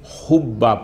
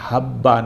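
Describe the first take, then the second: First: The first vowel is a 'u' sound. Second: The first vowel is an 'a' sound. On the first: The usual form when the demonstrative is dropped. "हा पर फतह की बजाय जम्मा अरब वाले ज़्यादा पढ़ते हैं" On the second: The usual form when the demonstrative follows. "हा पर फतह की बजाय"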